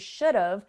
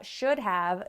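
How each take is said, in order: First: Have is contracted to a short 've' sound. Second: Both words are said fully and separately. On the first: "that contracts into should have" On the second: "first we have should have"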